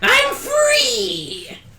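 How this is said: It is said in a put-on character voice.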